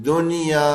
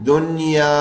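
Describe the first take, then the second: Both takes have the same delivery.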